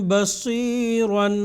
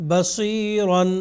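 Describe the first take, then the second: No difference in how they are said.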